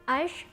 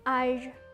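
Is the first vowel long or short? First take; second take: short; long. First: The first vowel is short. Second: The first vowel is somewhat long. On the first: The speaker calls it wrong. "bukan âge" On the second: The speaker calls it right. "dibacanya agak panjang"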